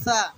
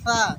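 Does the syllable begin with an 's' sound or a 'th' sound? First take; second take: th; th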